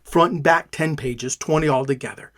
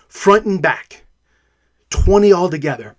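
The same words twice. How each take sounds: First: Soft repeat. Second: Said in the usual way. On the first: Real, not acted. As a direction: repeat it softer and lower, to yourself. Repeats count, drops much softer.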